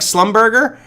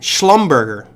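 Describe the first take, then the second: First: The name begins with a plain 's' sound. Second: The name begins with an 'sh' sound. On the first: The speaker calls it wrong. "if you read it like Slumberger, it just sounds weird" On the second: The speaker calls it right. "Schlumberger is the appropriate pronunciation"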